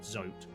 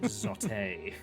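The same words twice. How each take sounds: First: The name is said as one syllable. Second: The name ends with an added 'ay' syllable. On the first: This is how the name is written. "I know his name is spelled Zote" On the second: This is how the character would say his own name. "he would always pronounce it Zote"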